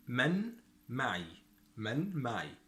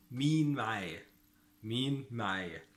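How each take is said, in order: First: من معي as "man ma'ee"; Standard Arabic pronunciation. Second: مين معايا as "meen ma'aaya"; Egyptian pronunciation. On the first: Teacher models who is with me, Standard Arabic pronunciation. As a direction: say من معي with short "man", word by word. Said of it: "in modern standard Arabic". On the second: Teacher models the dialect phrase, Egyptian pronunciation. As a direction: say مين معايا with long "ee" and final "ya". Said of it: "But in Egyptian dialect". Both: Shown as a demonstration.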